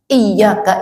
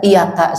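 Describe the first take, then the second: First: The y sound is held long and doubled. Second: The y sound is short and single. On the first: To You. The speaker calls it right. "yang harusnya kepada engkau" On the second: The light of the sun. The speaker calls it wrong. "tanpa tasdid"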